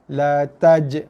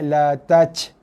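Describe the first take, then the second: First: The final j ends with a firm bounce. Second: The final j ends with a breathy puff. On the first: The speaker calls it right. "keras, tekan pada makhraj, keluar lantunan j" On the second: The speaker calls it wrong. "Bukannya la taj"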